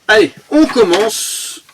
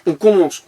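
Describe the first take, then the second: First: Higher, slow, drawn-out "Allez, on commence"; hyped kickoff. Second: Said in the usual way. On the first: Acted. Kicking off the unboxing for viewers, hyped and stretched. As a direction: stretch "on commence" like a show host.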